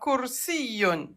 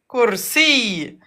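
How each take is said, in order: First: The word ends with an added n sound. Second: The word ends on a vowel without n. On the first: The word is said within the flow of speech. "Voilà" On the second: The word is said at a stop. "Et à l'arrêt, comment on va le prononcer?"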